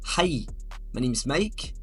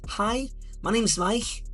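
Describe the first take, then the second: First: It is spoken in a Scottish accent. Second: It is spoken in a higher Liverpool accent. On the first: "If you're from Scotland, you might say" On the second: "If you're from Liverpool, it might be a little bit higher"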